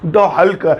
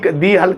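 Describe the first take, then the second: First: 'The' has a short vowel, like 'thuh'. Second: 'The' has a long vowel, like 'thee'. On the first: The speaker calls it right. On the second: The speaker calls it wrong.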